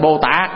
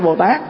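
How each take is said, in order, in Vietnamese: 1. Âm tiết cuối mang dấu nặng, giọng thấp, có thanh hầu. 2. Âm tiết cuối mang dấu sắc, giọng cao và lên. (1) "đó là bỏ dấu nặng rồi, nó trở thành" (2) "chứ không phải"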